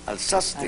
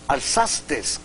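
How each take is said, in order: First: The word ends in a vowel, without s. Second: The word ends with an extra s sound. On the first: The speaker calls it right. "cuando es viste, alzaste" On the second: The speaker calls it wrong. "Decimos vistes, alzastes"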